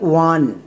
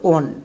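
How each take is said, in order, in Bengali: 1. এটা পুরো শব্দ হিসেবে বলা হয়, 'wun' এর মতো। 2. এটা অক্ষর ধরে ধরে উচ্চারণ করা হয়, 'on' এর মতো। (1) "একে বলা হয় ওয়ান, কারণ এটা সাইট ওয়ার্ডস" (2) "একদমই ভুল"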